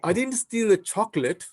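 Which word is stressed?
chocolate. The stress is on the word chocolate.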